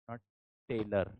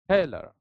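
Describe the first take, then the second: First: The first t has no puff of air. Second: The first t has a puff of air. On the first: The speaker calls it wrong. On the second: The speaker calls it right. "it is aspirated t"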